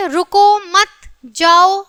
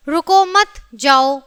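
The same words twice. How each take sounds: First: Slow "रुको", a break, then "मत जाओ"; pause after रुको. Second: "रुको मत" run together, then "जाओ"; slow reading, split after मत; pause after मत. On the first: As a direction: separate रुको from मत जाओ, drawn out slowly. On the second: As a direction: join रुको to मत, break before जाओ. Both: Shown as a demonstration. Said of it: "अल्प विराम चिन्ह का स्थान बदल जाने से".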